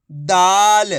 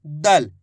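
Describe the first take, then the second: First: दाल with a loud, long stretched aa; drawn-out vowel. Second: दल with a short, unstretched a; no long aa in दल; short vowel. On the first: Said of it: "आ की मात्रा को खींच के पढ़ेंगे". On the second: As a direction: say दल quickly, vowel kept short. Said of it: "इस तरीके से पढ़ते हैं". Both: Shown as a demonstration.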